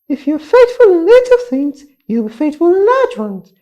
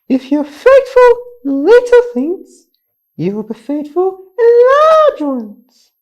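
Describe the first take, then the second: First: It is said at a very fast pace. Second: It is said at a faster pace.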